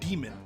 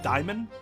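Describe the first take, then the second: First: The first vowel sounds like "ee". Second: The first vowel sounds like "eye". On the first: "Or is it E?" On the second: "it means I, right? Or is that how it's pronounced?"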